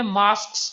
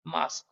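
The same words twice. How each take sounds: First: मास्क्स with a second s on the end; Indian double s. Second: मास्क with one s only; single s. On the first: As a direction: say मास्क्स with both s sounds. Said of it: "हम Indians इसको बोलते हैं". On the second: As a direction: end मास्क on a single k, no extra s. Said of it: "second word का pronunciation बनेगा". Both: Shown as a demonstration.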